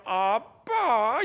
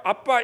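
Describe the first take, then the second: First: 아빠 stretched very slowly and sweetly; sweet drawn-out. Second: Said in the usual way. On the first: Shown as a demonstration. Preacher showing a daughter sweetly calling dad, slow. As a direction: melt dad with a long coaxing 아빠. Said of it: "이러면 녹아버려요". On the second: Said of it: "기계적으로 부르는 게".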